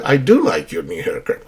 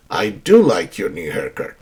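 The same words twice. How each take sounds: First: "do" given the main weight, falling after; stress on do. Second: I "do" like your new haircut, do weighted and falling; stress on do. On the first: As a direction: answer warmly, pushing "do" for emphasis. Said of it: "that's for emphasis". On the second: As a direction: lean into "do" to emphasize. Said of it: "when you emphasize". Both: Shown as a demonstration.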